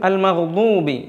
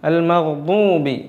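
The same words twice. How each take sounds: The two takes are said the same way.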